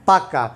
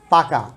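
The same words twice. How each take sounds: First: পাক্কা with a doubled, held kk; emphatic doubled k. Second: Said in the usual way. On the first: Shown as a demonstration. Teacher shows how people stress the word. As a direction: hit the kk in পাক্কা. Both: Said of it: "অনেকে জোর দিতে গিয়ে বলে কি".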